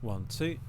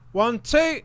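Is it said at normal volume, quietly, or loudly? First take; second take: normal; loudly. First: It is said at a normal volume. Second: It is said loudly and excitedly.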